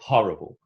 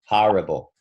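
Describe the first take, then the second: First: It is said in a British accent. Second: It is said in a New York accent.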